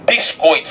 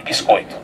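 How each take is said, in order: First: Said in the usual way. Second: Can't believe the word, cracking up; laughing disbelief. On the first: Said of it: "E Deus disse". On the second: Retold or imitated. Brother hearing God's word, laughing in disbelief. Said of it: "Não tô ouvindo bem, viu?".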